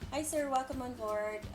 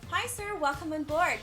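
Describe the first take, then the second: First: The greeting sounds sullen and grumpy. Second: The greeting sounds warm and cheerful. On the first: The attendant seems to be having a bad day. The speaker calls it wrong. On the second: The attendant is happy to serve. The speaker calls it right.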